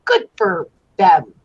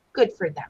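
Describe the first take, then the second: First: Slow, low sarcastic approval; drawn-out dry congratulation; mock approving. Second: Muttered softer repeat; soft throwaway echo; quiet aside. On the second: Acted.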